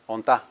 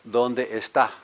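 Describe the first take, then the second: First: The phrase is squeezed into two short syllables. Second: Every syllable of the phrase is said in full. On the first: It is a casual style. "Reduced to onta" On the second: It is a formal style. "One is formal"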